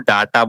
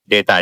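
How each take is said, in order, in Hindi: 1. पहला स्वर 'ah' जैसा बोला जाता है। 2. पहला स्वर 'ay' जैसा बोला जाता है। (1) "बहुत लोग इस डेटा को डाटा बोलते हैं" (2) "डेटा बोला जाता है"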